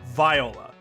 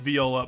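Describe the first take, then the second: First: It is said with the alternative name pronunciation. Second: It is said like the instrument's name. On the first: This is how some people with the name say it. "some people with that name that pronounce it viola" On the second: This is how the instrument is named. "The music instrument is pronounced viola"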